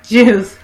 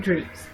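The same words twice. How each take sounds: First: Juice said loud and clear; corrected word. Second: Juice slurred, coming out like "dreeps"; stumbled word. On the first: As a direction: punch out Juice by itself as a correction. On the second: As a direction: trip over the word juice, garbling its vowel. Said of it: "I'm stuttering". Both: Real, not acted.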